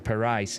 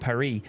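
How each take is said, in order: First: The surname is said with a Belgian pronunciation. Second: The surname sounds like the English word Paris. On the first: The speaker calls it right. "in the Belgian pronunciation I'm believing it is Parijs" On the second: The speaker calls it wrong. "I was calling him Glenn Van Paris earlier on"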